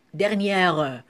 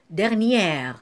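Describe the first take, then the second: First: "dernière" with an extra "euh" syllable at the end; "dernière" with its last E pronounced; final E sounded. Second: Said in the usual way. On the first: Shown as a demonstration. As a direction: voice the silent E of DERNIÈRE, like "derniè-reu". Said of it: "On n'a pas dit dernière". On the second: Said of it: "on a dit dernière".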